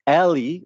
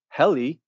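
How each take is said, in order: First: The word begins without an H sound. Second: The word begins with an H sound. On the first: "because the Greeks don't pronounce that H" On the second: "you could say it's heli"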